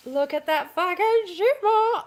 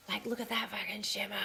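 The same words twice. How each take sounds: First: Slow, higher and drawn out in delight; "Look at that fucking shimmer" stretched out, rising with glee; excited. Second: Awed whisper. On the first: Showing viewers the dress fabric, slow delighted marvel. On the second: Showing off the shimmery dress. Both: Real, not acted.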